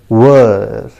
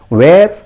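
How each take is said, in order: First: The word rhymes with 'fur'. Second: The word rhymes with 'air'. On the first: The speaker calls it right. "this word is pronounced as were" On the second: The speaker calls it wrong. "If you pronounce it where, I'm very sorry. That is the wrong pronunciation"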